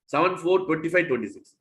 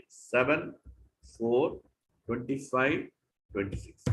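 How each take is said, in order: First: Said in the usual way. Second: "Seven", "four", "twenty-five", "twenty-six" each set apart by a pause, softer and falling lower; separate numbers. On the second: Shown as a demonstration. Teacher showing the class to read each number of the verse apart. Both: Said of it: "Don't put seven four twenty-five".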